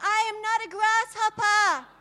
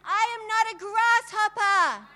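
First: It is said with ordinary energy. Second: It is said with much more passion.

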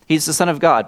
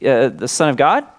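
First: The voice falls at the end. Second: The voice rises at the end.

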